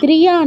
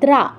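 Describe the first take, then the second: First: A y glide follows the dr cluster. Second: No y glide follows the dr cluster. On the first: The speaker calls it wrong. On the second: The speaker calls it right.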